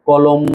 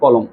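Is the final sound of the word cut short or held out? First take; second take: held out; cut short. First: The final sound is drawn out continuously. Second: The final sound is stopped abruptly. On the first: The speaker calls it wrong. "আমি কি এটা উচ্চারণ করতে পারবো কলম, কলম, এরকম ভাবে উচ্চারণ করতে পারবো? পারবো না।" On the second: The speaker calls it right. "Stop, ওখানে থেমে যেতে হবে।"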